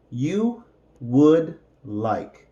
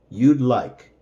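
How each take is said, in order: First: "You would like" drawn out word by word; unhurried teaching pace; slow separated words. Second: Said in the usual way. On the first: Shown as a demonstration. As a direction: model "You would like" slowly for learners. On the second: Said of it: "and then with the contraction".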